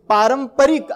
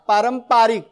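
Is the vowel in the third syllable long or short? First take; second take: short; long. First: The third syllable has a short vowel. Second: The third syllable has a long vowel. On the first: The speaker calls it right. "मूळ शब्द परंपरा आणि इक प्रत्यय लागतो" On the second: The speaker calls it wrong. "आपण पारंपारिक असं म्हणत होतो माहिती आहे पूर्वी"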